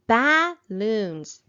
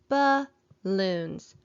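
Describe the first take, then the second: First: The first vowel is a short 'a' sound. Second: The first vowel is a weak 'uh' sound. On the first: The speaker calls it wrong. "That doesn't sound quite right" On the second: The speaker calls it right. "the vowel A is making an uh sound"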